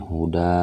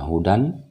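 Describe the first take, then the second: First: The word ends with a long a vowel. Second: The word ends with an n sound. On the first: The speaker calls it right. "tetapi huda" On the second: The speaker calls it wrong. "Tidak dibaca hudan"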